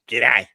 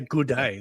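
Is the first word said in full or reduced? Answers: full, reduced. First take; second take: reduced; full. First: The first word is cut short into the second. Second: The first word keeps its full vowel sound. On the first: The speaker calls it right. "you're supposed to just like take that out" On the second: The speaker calls it wrong. "Americans say they often struggle saying "g'day." Like they say "good day.""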